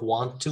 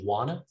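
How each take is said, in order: First: The two words are said fully and separately. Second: The two words blend into one reduced word. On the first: "instead of want to" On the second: "we just say wanna"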